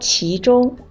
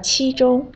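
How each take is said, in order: First: The first syllable has a rising tone. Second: The first syllable has a high level tone. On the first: The speaker calls it right. "应该是说其中二声其" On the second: The speaker calls it wrong. "你说成了其中一声七了"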